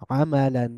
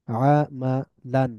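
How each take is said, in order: First: Said in the usual way. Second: আমালান very slow, split a, ma, lan; syllable by syllable. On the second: Shown as a demonstration. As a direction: pause after each syllable of আমালান. Teacher breaks word into syllables. (ভেঙে ভেঙে আমালান)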